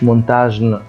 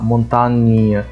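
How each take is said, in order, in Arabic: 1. يُنطق 'gn' كصوت g صلب. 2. يُنطق 'gn' كصوت ny. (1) "ما قلتش مونتاجن، خطأ" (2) "ينطق إني"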